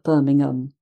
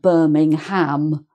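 First: The ending ham is weak and reduced. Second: The ending ham is said with a full vowel. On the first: The speaker calls it right. "but Birmingham" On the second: The speaker calls it wrong. "not Birmingham"

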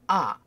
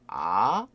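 First: The pitch falls sharply from high to low. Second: The pitch rises from mid to high. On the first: "세게 아" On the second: "아 하고 올라가죠"

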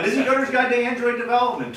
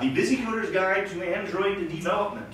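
First: It is said fast. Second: It is said slowly.

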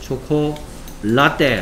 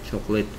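First: The last syllable sounds like 'latte'. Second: The last syllable sounds like 'lit'. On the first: The speaker calls it wrong. "초콜라떼 아니고요" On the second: The speaker calls it right. "초콜릿이라고 발음해야 되겠죠"

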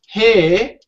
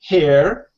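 First: The final R sound is dropped. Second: The final R sound is clearly pronounced. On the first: "When it comes to the British and Australian pronunciation, we say hair, her. So the R is not very distinct" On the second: "the Americans would say hair and her, so the R is very distinct"

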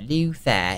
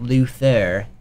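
First: The name is said with a British accent. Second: The name is said with an American accent. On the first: The speaker calls it right. "It's British. Yeah, Luther" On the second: The speaker calls it wrong. "It's not Luther"

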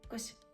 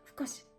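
First: It is shortened to one syllable: cause. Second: Both words are said in full: of course. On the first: "Ось так от може воно скорочується" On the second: "Під словом "cause" ховається "of course""

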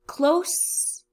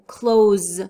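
First: The word ends with an 's' sound. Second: The word ends with a 'z' sound. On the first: Near. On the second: To shut. "You have the sound of Z"

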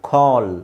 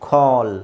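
No difference in how they are said.

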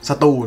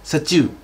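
First: It is said with a Thai pronunciation. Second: It is said with a Japanese pronunciation. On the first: "ภาษาไทยมันคือสตู" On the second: "ถ้าจะพยายามพูดเป็นสำเนียงภาษาญี่ปุ่นนะครับถ้าภาษาญี่ปุ่นจะออกเสียงว่า"

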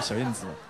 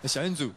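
First: The last syllable is a standard 'zi' sound. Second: The last syllable is a Taiwan-accented 'zu' sound.

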